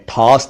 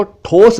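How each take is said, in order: First: ठोस with open "au"; "aw" vowel in ठोस; mispronounced ठोस. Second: ठोस with rounded "o"; pure "oh" in ठोस; correct ठोस. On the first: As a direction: say ठोस wrongly as "thaus". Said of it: "ठोस नहीं". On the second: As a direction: say ठोस as "thos". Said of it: "इसको ठोस बोलते हैं". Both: Shown as a demonstration.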